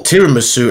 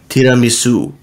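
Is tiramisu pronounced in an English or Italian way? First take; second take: English; Italian. First: The word is said with an English-style pronunciation. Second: The word is said with an Italian-style pronunciation. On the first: "as other people like to pronounce it" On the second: "the Italian way is tiramisu"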